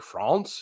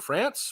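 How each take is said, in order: First: It is said with a French pronunciation. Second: It is said with an English pronunciation.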